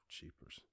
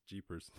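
First: Hushed awe at Jeepers; whispered jeepers. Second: Said in the usual way. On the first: Real, not acted. Reacting to the huge meal count, Jeepers whispered in awe. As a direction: breathe the word Jeepers as a whisper with no voice.

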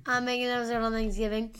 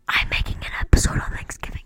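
First: Said in the usual way. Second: Loud close-up stage whisper. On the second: Pretend. Host teasing listeners about a holiday episode, whispered. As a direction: whisper it right into the mic. Sudden whispered repeat of his announcement.

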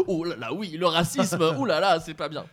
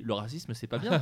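First: "Oh là là" sung out higher and louder, mock-scandalised; exaggerated fake shock. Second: Said in the usual way. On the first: Shown as a demonstration. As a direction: ham up the dismay over "le racisme". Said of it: "Tu dis pas". (indignation surjouée, plus aiguë et plus forte) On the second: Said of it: "Normalement, tu dis".

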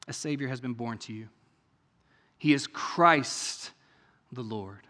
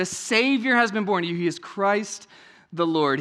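First: Softly read, much lower and quieter, as if reverent; hushed reading. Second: Said in the usual way. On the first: Shown as a demonstration. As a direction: let the angel's words fall quietly. Reads angel's words, then repeats.

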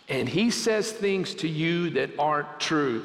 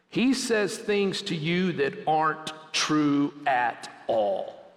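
First: Said in the usual way. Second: Every word of "aren't true" leaned on slowly; slow, weighty repeat. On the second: Shown as a demonstration. Preacher repeating the warning to students, slow and stressed. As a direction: drive it home to the students, slower. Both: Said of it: "Students, listen to me".

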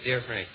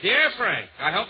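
First: Low, soft repeat of the greeting; offhand aside. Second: Letter read-out. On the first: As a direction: toss it off lower and quieter, as an aside. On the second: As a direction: read out the greeting as a letter begins. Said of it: "She starts off". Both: Acted.

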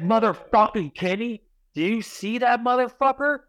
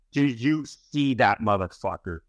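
First: Much higher, agitated plea to look; desperate, pitched-up call to a friend; frantic urging. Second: Said in the usual way. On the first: Retold or imitated. To his buddy Kenny about the gargoyle, high frantic urging.

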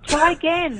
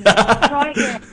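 First: Higher, playful taunt; teasing dare. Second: Slow, stretched and louder taunt; milk the joke slowly; drawn-out tease. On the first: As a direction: tease the host cheekily. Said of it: "Well, buddy". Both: Pretend.

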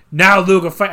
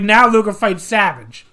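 First: Put-on a faltering first stab at a Boston accent; loud botched Boston accent attempt; bad Boston accent. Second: Put-on louder second try at a Boston accent; self-admittedly bad Boston accent; mock Boston accent. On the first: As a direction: fumble a Boston accent for a Taskmaster quote. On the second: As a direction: ham up a Taskmaster quote in a rough Boston accent. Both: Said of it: "I can't do a Boston accent".

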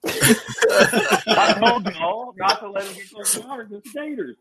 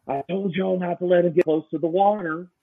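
First: Imitating Kent's Southern warning about gators; Southern accent imitation. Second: Southern accent imitation. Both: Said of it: "like Sam said".

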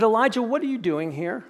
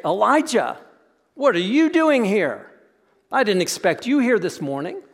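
First: Said in the usual way. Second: Offhand "what are you doing here?", as if bumping into him by chance; lightly surprised, chatty, not searching; casual surprised greeting. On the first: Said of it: "He said". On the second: Retold or imitated. God bumping into Elijah in the cave, mild casual surprise. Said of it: "he doesn't go into the cave and say".

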